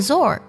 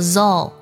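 First: The syllable ends with an R sound. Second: The syllable ends with an L sound. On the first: The speaker calls it wrong. "不要读作ZOR，这样就错了" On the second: The speaker calls it right. "读作ZOL"

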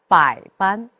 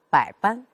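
First: The first syllable's low tone is full-length. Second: The first syllable's low tone is clipped short. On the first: The speaker calls it right. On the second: The speaker calls it wrong.

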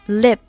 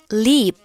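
First: The vowel is short and lax. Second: The vowel is long and tense. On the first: The speaker calls it right. "正确的发音应该是" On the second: The speaker calls it wrong. "示范一下错误的发音"

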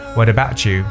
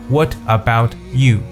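First: 'About' and 'you' are linked into one flow. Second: 'About' and 'you' are said as separate words. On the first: The speaker calls it right. "一定要进行连读的说法，所以就把它读成为What about you" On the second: The speaker calls it wrong. "你不能把它读成What about you"

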